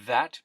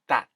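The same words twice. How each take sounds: First: It begins with a voiced th sound. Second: It begins with a sound close to d. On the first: "The voiced th th" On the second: "becomes something closer to a d"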